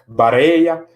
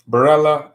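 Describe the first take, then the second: First: The name is said with a Spanish accent. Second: The name is said without a Spanish accent.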